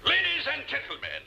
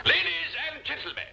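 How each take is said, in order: First: Grand, high orator's opening; formal speech voice. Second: LADIES lifted high and weighted; stressed ladies. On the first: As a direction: address the banquet hall with pomp. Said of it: "Now then". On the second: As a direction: lean hard on the word Ladies. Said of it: "Mark the emphasis I place on this". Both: Shown as a demonstration.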